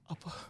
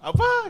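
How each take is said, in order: First: It is said in a sad tone. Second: It is said in a happy tone.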